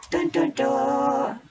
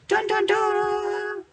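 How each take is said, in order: First: Slow, high sung dun dun dun; sung, mock dramatic fanfare. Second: Slow, very high sung dun dun dun; sung, push the fanfare up into a squeak; sung, mock dramatic fanfare, higher. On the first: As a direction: hum a hammed-up ominous theme. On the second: Fanfare repeated even higher.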